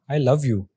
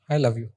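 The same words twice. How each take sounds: First: It is said as if truly meant. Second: It is said without meaning it.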